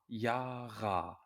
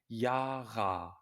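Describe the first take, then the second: First: The final vowel is a full, clear ah. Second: The same.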